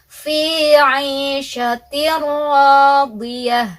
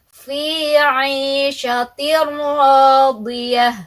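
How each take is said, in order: No difference in how they are said.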